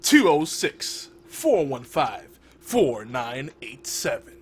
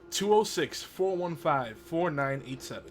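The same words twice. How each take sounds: First: The number is said slowly. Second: The number is said at normal speed.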